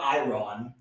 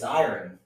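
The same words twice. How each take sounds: First: Iron stretched as EYE-RON; wrong version. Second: Iron as EYE-urn, falling; speaker's own version. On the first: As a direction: say iron with a full RON ending. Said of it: "It's not iron". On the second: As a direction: say iron with a reduced second syllable. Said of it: "it's iron". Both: Shown as a demonstration.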